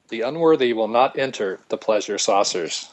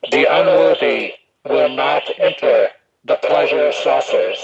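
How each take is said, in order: First: Said in the usual way. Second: Slow, halting put-on character voice; A Paul voice. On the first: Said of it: "You had to translate that". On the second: Shown as a demonstration. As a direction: pronounce it as an eerie, altered voice, word by word. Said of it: "use my A Paul voice".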